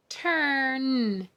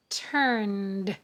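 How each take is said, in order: First: "Turned" stretched, with the final sound set apart. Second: Said in the usual way. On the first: Shown as a demonstration. Teacher spelling by sound, "Turned" slowly segmented. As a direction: hold the middle of "Turned", detach the ending. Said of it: "That's a multi-letter phonogram". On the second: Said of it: "The next column".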